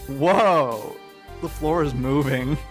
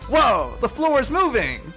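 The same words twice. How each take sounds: First: It is said in a drunk voice. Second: It is said in a sober voice.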